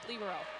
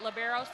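First: The word is said with an Italian pronunciation. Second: The word is said with an American pronunciation. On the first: "which the Italians pronounce it libero" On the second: "we've kind of Americanized it to pronounce it libero"

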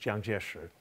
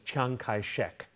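First: The name is said in its Mandarin form. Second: The name is said in a local dialect form. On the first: This is the standard Chinese form of the name. "his Mandarin name is" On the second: This is the form most familiar in English. "that's not a Mandarin pronunciation, it's a local dialect"

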